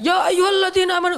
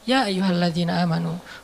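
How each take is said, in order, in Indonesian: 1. Diucapkan dengan keras, seperti teriakan. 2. Diucapkan dengan pelan, dengan cara yang santai. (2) "santai turunnya"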